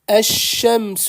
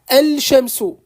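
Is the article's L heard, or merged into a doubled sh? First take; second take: merged; L heard. First: The L is dropped and the sh is doubled. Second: The L is pronounced before a single sh. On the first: The speaker calls it right. "j'ai appuyé, j'ai insisté sur le shin" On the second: The speaker calls it wrong. "c'est un peu lourd, c'est compliqué"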